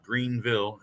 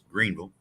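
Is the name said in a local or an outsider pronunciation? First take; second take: outsider; local. First: The name is said the way outsiders say it. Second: The name is said the way locals say it. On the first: The speaker calls it wrong. "not Greenville" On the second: The speaker calls it right. "If you're one of the locals, it's Greenville"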